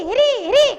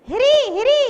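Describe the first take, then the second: The two takes are said the same way.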